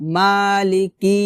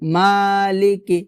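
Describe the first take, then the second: Both takes have the same delivery.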